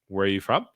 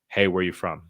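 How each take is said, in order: First: The pitch goes up high at the end. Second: The pitch stays level and falls at the end.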